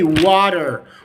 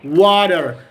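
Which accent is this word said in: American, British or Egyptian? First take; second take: American; American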